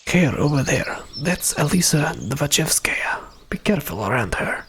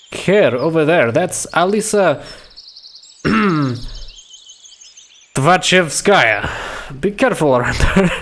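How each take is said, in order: First: Whisper. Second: Slow, higher, voiced character warning; full-voiced warning. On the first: Acted. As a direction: warn them under your breath. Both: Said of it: "he spoke in whisper".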